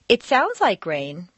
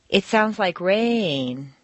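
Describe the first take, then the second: First: It is said doubtfully, implying the opposite meaning. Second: Rain is stressed as new information, on two notes.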